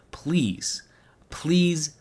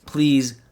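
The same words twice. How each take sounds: First: Breathy whispered please, pleading. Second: Said in the usual way. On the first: Real, not acted. Begging his viewers, he whispers please. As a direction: whisper it like a desperate plea.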